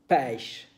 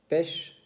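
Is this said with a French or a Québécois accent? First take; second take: Québécois; French. First: It is said with a Québécois accent. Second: It is said with a metropolitan French accent. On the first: "Et les Québécois disent pêche" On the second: "Les Français disent pêche"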